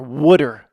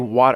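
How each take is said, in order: First: It sounds like wooder, with a d-like middle. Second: It is said with a clear t in the middle. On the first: The speaker calls it right. "W O O O O D E R, water" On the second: The speaker calls it wrong. "You don't ever say water"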